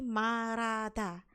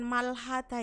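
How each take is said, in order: First: The H is dropped and an R-like sound is used. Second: An L and a clear H sound are pronounced. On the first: The speaker calls it right. "tapi marada. ... Ini adalah yang benar ya" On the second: The speaker calls it wrong. "Ini bacanya bukan malhada ya"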